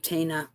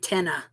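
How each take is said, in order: First: The first vowel sounds like in 'tea'. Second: The first vowel sounds like in 'ten'. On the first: This is how Americans usually say it. "we say Tina in the states" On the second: This is how the name's owner says it. "I think she pronounces her name Tenna"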